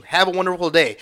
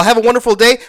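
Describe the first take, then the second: First: Said in the usual way. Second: Sarcastic echo, pitched up and louder; sneering mock-polite repeat. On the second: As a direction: throw their sign-off back at them with scorn. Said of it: "All right, first of all".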